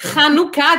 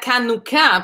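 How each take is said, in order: First: The word begins with a breathy H sound. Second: The word begins with a hard K sound. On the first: The speaker calls it right. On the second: The speaker calls it wrong.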